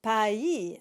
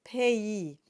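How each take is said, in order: First: "pays" read wrongly as one syllable "pay", the English way. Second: "pays" said as "pé-i", open eh then i; correct French. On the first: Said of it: "it's wrong". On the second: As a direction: say "pays" properly in two parts, pé-i. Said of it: "It is". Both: Shown as a demonstration.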